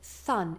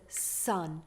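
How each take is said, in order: First: The s is lisped, sounding like th. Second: The s is a clear hissing sound. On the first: The speaker calls it wrong. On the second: The speaker calls it right.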